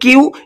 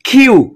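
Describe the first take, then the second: First: The Q is said plainly, without a puff of air. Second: The Q is said with a strong puff of air. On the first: "আমরা বলি কিউ" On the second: "ইংরেজরা বলে এটাকে খিউ"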